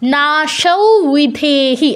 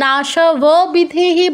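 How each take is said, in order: First: The first word ends in an 'au' sound. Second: The first word ends in an 'ab' sound. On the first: The speaker calls it right. "শুধু উটা অনুসারের জায়গায় উচ্চারণ হবে" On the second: The speaker calls it wrong. "আমি কি নাশব বিধেহি বলছি, বলছি না"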